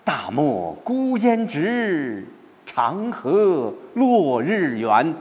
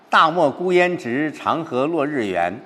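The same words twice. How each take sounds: First: Slow, higher, broad recital; spacious, uplifted reading of 大漠孤烟直 长河落日圆; opening up, expansive. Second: 直 and 圆 pressed hardest, the words before lifting up to them; stress on 直 and 圆. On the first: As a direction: let the feeling open wide across the desert. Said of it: "把感情转过来". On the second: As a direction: build up through the line and land on 直 and 圆. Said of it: "最重的重音一个是直，一个是圆". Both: Shown as a demonstration.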